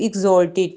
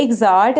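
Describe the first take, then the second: First: "exalted" with a rounded "o", ig-ZOL-tid; preferred pronunciation. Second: "Exalt" with an open "aa", ig-ZAALT; alternative pronunciation. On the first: Teacher giving students the preferred reading, "exalted" with an "o" sound. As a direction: say "exalted" with an "ol" vowel. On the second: Teacher showing students the other reading, "Exalt" with an "aa" sound. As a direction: say "Exalt" with a long "aa" vowel. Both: Shown as a demonstration. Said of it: "लेकिन advance English में आपको ज़्यादा prefer करती हूँ".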